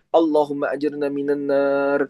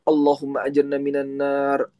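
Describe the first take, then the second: Both takes have the same delivery.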